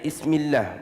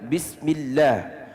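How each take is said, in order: First: The word begins with a vowel, no b. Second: The word begins with a clear b sound. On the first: The speaker calls it wrong. "bukannya Ismillah" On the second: The speaker calls it right. "Bacaan Bismillahirrahmanirrahim yang dengan tepat adalah Bismillah"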